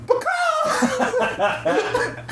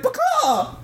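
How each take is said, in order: First: High, cartoonish chicken squawk blurted at the counter. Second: High chicken squawk with a falling, sad end. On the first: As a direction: squawk like a hypnotized chicken ordering food. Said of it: "and just goes". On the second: Retold or imitated. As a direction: squawk again, deflated because she doesn't get it. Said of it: "he's doing it really sad".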